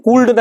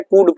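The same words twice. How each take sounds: First: कूल्ड said wrongly with the L sounded, "kuld"; wrong pronunciation. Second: कूड said "kud" with the L silent; no L in कूड, just "kud"; correct pronunciation. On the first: Teacher warning students against saying the L. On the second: Teacher giving students the correct silent L. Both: Shown as a demonstration. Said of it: "एल silent".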